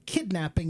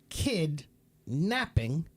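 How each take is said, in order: First: It is said as one word without a break. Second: It is said as two separate words. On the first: Someone stole a child. "is one word" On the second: A child is taking a nap. "is two words"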